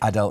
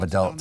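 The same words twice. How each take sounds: First: It is said the speaker's own non-American way. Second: It is said the American way. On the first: The speaker calls it wrong. "I get the pronunciation of the word wrong" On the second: The speaker calls it right. "instead of"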